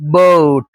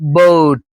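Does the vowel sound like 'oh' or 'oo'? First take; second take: oh; oh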